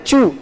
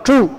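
First: "chu" with an ordinary Spanish CH; wrong plain CH. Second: "chu" with the tongue curled back; retroflex CH. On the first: Teacher showing what it is not, ordinary CH. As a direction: say "chu" without curling the tongue back. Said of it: "y no es chu". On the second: Teacher contrasting the right sound, retroflex CH. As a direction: correct it to "chu" with the apostrophe CH. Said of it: "sino chu". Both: Shown as a demonstration.

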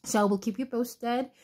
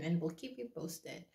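First: Said in the usual way. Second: Whispering keep you posted, much softer; whispered. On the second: Real, not acted. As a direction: hush it to a whisper. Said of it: "why are you whispering".

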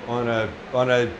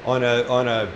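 The two takes are said the same way.

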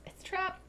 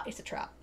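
First: High, soft mock warning; playful warning. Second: Said in the usual way. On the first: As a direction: repeat it small and high, like an aside. Playful hushed repeat of the reveal.

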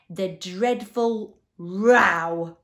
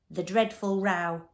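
First: Very loud, slow, drawn-out wail; anguished cry. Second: Eager, louder offering of an answer; mildly bright. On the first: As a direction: cry it out, stretching every word in anguish. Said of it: "cried the anguished Din". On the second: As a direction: pipe up helpfully, at an ordinary pace. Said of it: "volunteered the humbug brightly". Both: A narrator's reading.

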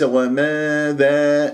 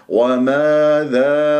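First: وماذا narrowed to "wameedhee"; faulty fronted وماذا; wrong tilted alifs. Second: وماذا with wide, long "aa" vowels; very slow open chanted وماذا; open jaw. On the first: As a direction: tilt the vowels of وماذا toward "eh". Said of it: "وليس". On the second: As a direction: drop the jaw for both alifs of وماذا. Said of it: "وباعد بين الفكين". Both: Shown as a demonstration.

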